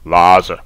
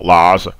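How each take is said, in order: The two takes are said the same way.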